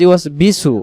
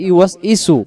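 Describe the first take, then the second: First: The syllable before su starts with b. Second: The syllable before su starts with a vowel. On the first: "কেউ বলবে" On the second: "কিন্তু আমরা বলে ফেলি"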